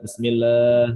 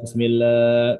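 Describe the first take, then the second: Both takes have the same delivery.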